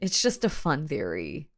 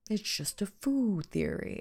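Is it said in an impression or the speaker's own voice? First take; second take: own voice; impression. First: It is said in the speaker's normal voice. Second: It imitates the guy from Game Theory.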